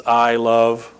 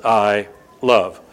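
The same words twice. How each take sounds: First: Said in the usual way. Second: "I" and "love" split by a pause; two separate words. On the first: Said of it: "you got one word that means". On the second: Shown as a demonstration. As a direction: say "I", stop, then "love" on its own. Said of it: "In English, it's two words".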